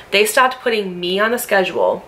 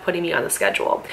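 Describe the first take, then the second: First: Restated with weight on "stopped", falling firmly at the end; emphatic repeat. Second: Said in the usual way. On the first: Real, not acted. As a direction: lean on "stopped" to drive it home.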